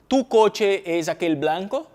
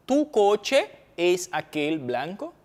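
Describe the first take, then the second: First: Slow Spanish sentence, "tu" rising; Spanish example read slowly. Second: Very slow teaching repeat. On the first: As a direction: read it like a teacher's model line. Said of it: "Spanish example read aloud". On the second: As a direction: drag "Tu coche es aquel blanco?" out, syllable by syllable. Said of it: "repeated slower for students". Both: Shown as a demonstration.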